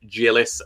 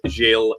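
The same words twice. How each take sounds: First: The name is said with an anglicized pronunciation. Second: The name is said with a French pronunciation. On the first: The speaker calls it wrong. "It wasn't Gilles, as I said yesterday" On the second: The speaker calls it right. "My apologies, Gilles"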